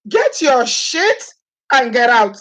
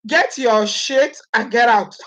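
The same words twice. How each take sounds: First: Higher and very slow, dragging out get; high, drawn-out eviction. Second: Slow, every word spelled out; slow, firm dismissal. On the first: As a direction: stretch it out, mocking the eviction. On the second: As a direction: say it slowly, throwing him out. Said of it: "saying it like the way it was said". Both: Shown as a demonstration.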